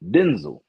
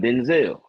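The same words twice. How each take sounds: First: The second syllable is said plainly, without extra weight. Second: The second syllable is said with extra weight. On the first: This is how the man himself says his name. The speaker calls it right. "His name is pronounced Denzel" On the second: This is how most people say the name. The speaker calls it wrong. "put that extra "hmm" on the back of it"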